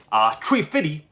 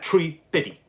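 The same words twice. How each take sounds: First: Chef impression. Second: Quoted line delivery. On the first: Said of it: "is Chef from South Park". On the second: Shown as a demonstration. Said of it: "Okay, exactly like that".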